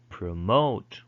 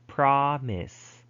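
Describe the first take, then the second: First: Pro-MOTE, second syllable louder and longer; final-syllable stress. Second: PROM-ise, first syllable high and drawn out; first-syllable stress. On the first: Teacher showing verb stress with promote, stressing the last syllable. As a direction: hit the end of "promote". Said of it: "if it's verb, you usually put it". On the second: Teacher showing noun stress with promise, stressing the first syllable. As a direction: hit the start of "promise". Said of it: "put the stress at the beginning syllable". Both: Shown as a demonstration.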